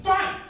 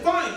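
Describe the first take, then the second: First: Higher, louder curt reply; a sulky kid talking back; sulky snap. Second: Higher, louder sulky "Fine"; curt reply. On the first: Son snaps back at his father, high and curt. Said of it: "I thought he was talking back". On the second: Son answers his dad with a sulky, louder Fine. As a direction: throw it back curtly. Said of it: "he just said". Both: Retold or imitated.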